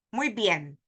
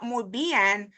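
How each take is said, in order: First: Muy bien as two syllables, "mwee byen"; correct diphthong. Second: Muy bien drawn out as "moo bee-EN"; wrong split vowels. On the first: Teacher showing how we say it, joined diphthong. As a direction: join the vowels in muy bien. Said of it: "So we say". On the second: Teacher showing what not to say, split vowels. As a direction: pull the vowels of bien apart. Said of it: "Not muy bien". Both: Shown as a demonstration.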